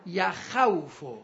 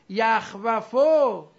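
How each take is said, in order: First: یخوفو very slow, ya-KHAW-fu with diphthong; vowel moved back. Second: یخوفو very slow and loud, yakh-wa-fu; unshifted form. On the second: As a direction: hold each syllable of یخوفو, closed kh then wa. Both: Shown as a demonstration.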